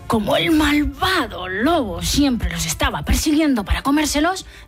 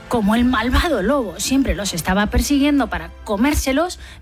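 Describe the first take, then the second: First: "Malvado" is said in a scary, menacing voice. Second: "Malvado" is said in a plain voice.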